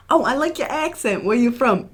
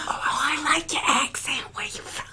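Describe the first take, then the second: First: Higher-pitched, friendly mock greeting; Vine guy impression. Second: Hushed library whisper; whispered Vine impression. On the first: Retelling a Vine to a co-host, higher-pitched impression. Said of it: "Have you seen that Vine". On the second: Repeating the Vine punchline for a librarian, exaggerated whisper. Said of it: "'Cause he's a librarian".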